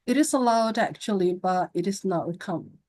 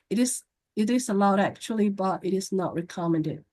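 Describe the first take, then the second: First: The voice is lively with varied pitch and emphasis. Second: The voice stays flat with little pitch movement. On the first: The speaker calls it right. "vokalnya yang harus ekspresif. Saya kasih contoh ya, nggak gerak" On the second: The speaker calls it wrong. "Daripada ngomongnya datar"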